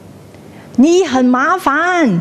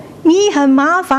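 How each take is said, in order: First: High, drawn-out calling out; cliff-top shout. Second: Echo. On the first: Someone on the same cliff shouting a complaint, high call. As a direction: stretch the complaint across the valley. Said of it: "you shout". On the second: The cliff sends the complaint back, rippling echo. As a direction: let the final syllable ripple away. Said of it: "He will". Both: Acted.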